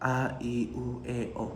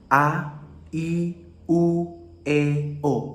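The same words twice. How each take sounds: First: The vowels are mumbled with little mouth movement. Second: The vowels are articulated clearly with full mouth movement. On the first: The speaker calls it wrong. "Jangan begini guys, terkadang banyak orang yang berbicara seperti" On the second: The speaker calls it right. "yang lebih jelas"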